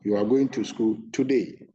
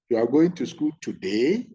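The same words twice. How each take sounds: First: The voice falls at the end. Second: The voice rises at the end. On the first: The speaker is sure of what is said. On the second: The speaker is not sure.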